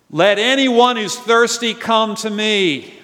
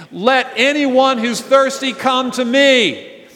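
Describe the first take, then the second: First: Slow, louder cry, pitched up; Jesus crying out. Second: Slow, loud cry, pitched well up; Jesus crying out. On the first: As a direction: call it out slowly to the crowd. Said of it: "he cries out". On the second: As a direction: proclaim it slowly, full voice. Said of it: "he cried out". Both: Acted.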